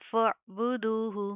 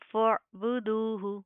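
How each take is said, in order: Both takes have the same delivery.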